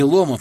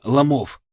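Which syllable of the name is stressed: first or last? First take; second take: first; last. First: The stress is on the first syllable. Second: The stress is on the last syllable. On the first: This is how outsiders say the name. The speaker calls it wrong. "Не Ломов" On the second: This is how the locals say the name. The speaker calls it right. "Ударение на последний слог ставят"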